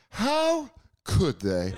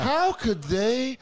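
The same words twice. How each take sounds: First: Slow, shocked disbelief; mock outrage. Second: Higher, slow, rising indignation; mock outrage, pitched up. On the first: Host mocking viewers judging dirty cops, slow indignant. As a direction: drag it out in disbelief. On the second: Host mocking viewers again, higher and slower shocked. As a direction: stretch it up high, scandalized. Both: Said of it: "you're supposed to watch that stuff and be like".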